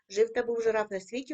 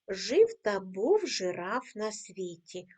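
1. Рядок читається ще швидше. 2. Рядок читається найповільнішим темпом. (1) "кожного разу пришвидшуємо темп" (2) "Ми 4 рази читаємо цю скоромовку"

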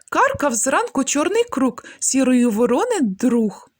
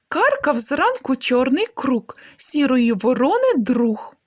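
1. Вимовляється у найшвидшому темпі. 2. Вимовляється трошки швидше. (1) "Ще швидше" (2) "Трошки швидше"

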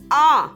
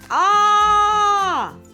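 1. Звук «А» вимовляти голосно, не кричать. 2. Звук «А» кричать, як заклик. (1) "А тепер промовити голосно" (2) "А зараз прокричати"

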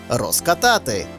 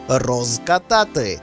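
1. Вимовлено швидко, з оглушеним приголосним у префіксі. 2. Вимовлено повільно, з дзвінким z у префіксі. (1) "у швидкому темпі допускається оглушення кінцевого приголосного" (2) "Під час повільного, роздільного мовлення ... маємо вимовляти дзвінко"

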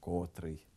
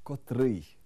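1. Слово має зсунутий наголос. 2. Слово має стандартний наголос. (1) "Неправильно" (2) "Правильно"

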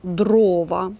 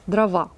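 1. Наголос падає на перший склад. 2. Наголос падає на останній склад. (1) "перший склад наголошений; правильно, звісно, дрова" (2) "із російською, де наголос іде на закінчення"

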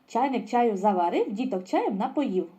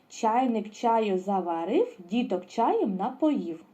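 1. Чистомовка промовляється дуже швидким темпом. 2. Чистомовка промовляється помірним темпом. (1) "І останній раз іще швидше" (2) "А тепер повністю"

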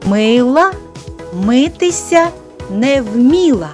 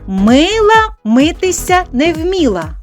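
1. Фраза вимовляється помірним темпом. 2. Фраза вимовляється трохи швидше. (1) "повторюйте за мною" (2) "Тепер трішечки швидше"

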